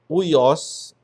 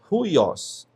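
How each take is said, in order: First: The word starts directly with a vowel sound. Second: The word starts with a breathy h sound. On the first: The speaker calls it wrong. "aqui não é uios" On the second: The speaker calls it right. "é ruios"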